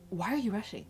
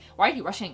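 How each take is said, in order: First: It is said in a kind, gentle tone. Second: It is said in a harsh, scolding tone.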